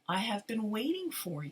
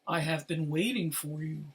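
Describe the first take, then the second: First: It is said in an ordinary speaking voice. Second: It is said in a low, deep voice.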